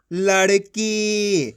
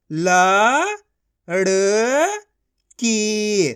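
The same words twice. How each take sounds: First: Said in the usual way. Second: Slow, each syllable of ल-ड़-की pulled apart; teacher sounding out a word. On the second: Shown as a demonstration. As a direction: sound out लड़की as ल, ड़, की with gaps. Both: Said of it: "एक एक अक्षर का उच्चारण करके".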